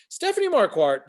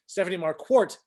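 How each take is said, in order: First: "Marquardt" ending like "kwart"; first try at name. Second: "Marquardt" ending like "kwort"; corrected name pronunciation. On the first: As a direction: say "Marquardt" with an open "ah" in the last syllable. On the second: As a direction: say "Marquardt" with a rounded "or" in the last syllable. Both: Real, not acted. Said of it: "gotta do it right".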